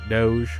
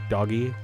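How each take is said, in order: First: The word is said as one syllable. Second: The word is said as two syllables. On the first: "I don't know if you pronounce it doge" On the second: "I always say doggy because that is funnier to me"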